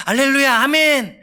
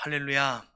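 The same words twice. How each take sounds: First: High, eager cry of praise; acted-out burst of glad faith; joyful acclaim. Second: Low, soft word of praise; acted-out subdued assent; quiet acceptance. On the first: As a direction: receive it with delight, pitched up. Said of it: "그것을 기쁨으로 받습니다". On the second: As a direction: murmur it gently, pitched down. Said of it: "그것이 받아들입니다".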